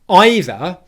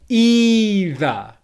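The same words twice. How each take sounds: First: The first vowel is an 'eye' diphthong. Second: The first vowel is a long 'ee' sound. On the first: "instead of saying a long E vowel sound, we're going to say the word I" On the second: "holding it as a long English vowel sound"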